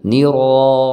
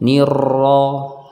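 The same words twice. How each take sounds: First: The r has only two or three light vibrations. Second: The r is pressed with a long rolling trill. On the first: The speaker calls it right. "Harus sedikit saja, sekitar dua atau tiga getaran" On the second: The speaker calls it wrong. "Kalau ditekan maka bunyinya akan seperti ini"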